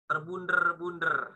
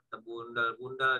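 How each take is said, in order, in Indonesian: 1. Diucapkan dengan r getar yang kuat. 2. Diucapkan dengan l sebagai gantinya. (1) "R-nya ini banget gitu" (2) "Kalau orang cadel mesti nyebutnya pakai L"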